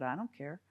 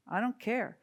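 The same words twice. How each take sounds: First: Said in the usual way. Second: "don't" pushed higher and firmer on the repeat; stubborn little squirrel, voice rising on "don't"; defiant insistence. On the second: Acted. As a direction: dig in and hit "don't" harder the second time.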